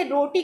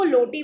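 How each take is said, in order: First: Said in the usual way. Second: "लोटी" with an L in place of the R; lisping substitution. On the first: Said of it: "रोटी को लोटी बोलना". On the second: Shown as a demonstration. Teacher shows students lisping, "लोटी" with L for R. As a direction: say "लोटी", the child's R turned into L. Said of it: "ये lisping कहलाता है".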